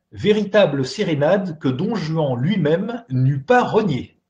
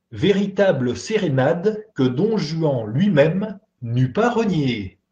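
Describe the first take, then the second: The two takes are said the same way.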